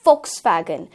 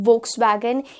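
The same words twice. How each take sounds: First: The word begins with an F sound. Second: The word begins with a V sound. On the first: The speaker calls it right. "It's फ Volkswagen" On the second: The speaker calls it wrong. "It's not व Volkswagen"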